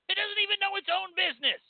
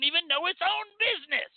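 First: High, fast mocking voice; squeaky mocking repeat. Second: High-pitched mocking. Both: Real, not acted. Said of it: "repeated in high voice".

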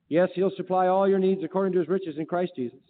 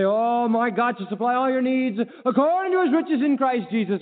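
First: Said in the usual way. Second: Raised, exuberant church recitation; high-pitched pious enthusiasm, put on; congregation's showy profession. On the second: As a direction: proclaim the promise with mock fervour. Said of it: "We say".

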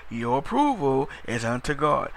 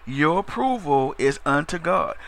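Both takes have the same delivery.

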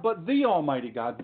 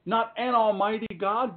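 First: "the" said as an emphatic "thee"; stress on THE. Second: "an" singled out, pitched up; stress on AN. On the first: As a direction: lean on "the" as the one and only. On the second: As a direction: punch "an" as the word to reject. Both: Shown as a demonstration.

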